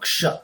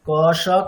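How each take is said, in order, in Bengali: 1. দুটি ধ্বনি দ্রুত বলা হয়, মিশে একটি হয়ে যায়। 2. দুটি ধ্বনি ধীরে ধীরে বলা হয়, আলাদা দুটি দল হিসেবে। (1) "দুটোকে একসাথে মিলিয়ে দেওয়া" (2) "এই দুটি অক্ষরকে কে কত স্পিডে বলতে পারে"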